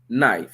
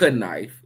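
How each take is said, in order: First: The K at the start is silent. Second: The K at the start is sounded. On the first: The speaker calls it right. "it's knife. So that H is just as silent as that K" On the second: The speaker calls it wrong. "The K is not it's not knife"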